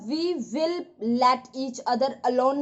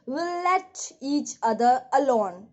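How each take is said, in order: First: We and will are spoken as separate words. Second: We and will are merged into one syllable. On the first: The speaker calls it wrong. "नहीं बोलेंगे" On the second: The speaker calls it right. "Speed में विल ऐसे सुनाई देता है"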